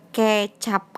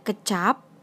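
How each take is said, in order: First: The first vowel is a clear e sound. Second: The first vowel is a weak neutral sound. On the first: It means soy sauce. "E-nya pakai E curek" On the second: It means word. "Yang atas ... E-nya E biasa"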